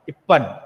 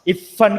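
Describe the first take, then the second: First: The middle consonant is a doubled p sound. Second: The middle consonant is an f sound. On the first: The speaker calls it wrong. "Urdu भाषा का correct pronunciation नहीं हो रहा है" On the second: The speaker calls it right. "इफन की जगह पर"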